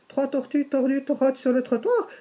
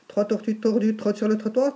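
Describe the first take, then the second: First: The sentence is said at a moderate pace. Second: The sentence is said at a fast pace.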